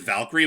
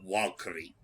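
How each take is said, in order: First: The word begins with a V sound. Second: The word begins with a W sound. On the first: The speaker calls it wrong. "technically they don't pronounce it as Valkyrie" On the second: The speaker calls it right. "like with a W"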